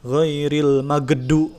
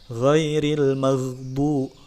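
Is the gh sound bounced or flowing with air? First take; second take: bounced; flowing. First: The gh sound is bounced like a stop. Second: The gh sound flows with continuous air. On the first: The speaker calls it wrong. "bukan diqalqalahkan" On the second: The speaker calls it right. "rokhawah, bukan qalqalah"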